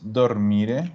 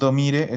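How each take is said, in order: First: The r before the m is pronounced. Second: The r before the m is left out. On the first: The speaker calls it right. "es dormire. Ahí sí" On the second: The speaker calls it wrong. "No es domire"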